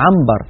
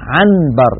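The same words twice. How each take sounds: First: The n before b is turned into m. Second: The n before b is said as a clear n. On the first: The speaker calls it right. "الإنسان بفطرته يقلب النون الساكنة إذا أتى بعدها باء إلى ميم" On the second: The speaker calls it wrong. "لا ينطق النون صريحة هكذا"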